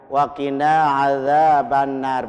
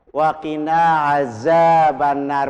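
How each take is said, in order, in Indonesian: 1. Konsonan di 'adzab' itu bunyi th yang lembut. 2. Konsonan di 'adzab' itu bunyi z biasa. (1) "Benar dia" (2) "Salah. zal diganti dengan z"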